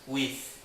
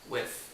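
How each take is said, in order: First: The vowel is a high, tense 'ee' sound. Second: The vowel is lower and more relaxed. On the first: The speaker calls it wrong. "Você não fala with" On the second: The speaker calls it right. "você fala with"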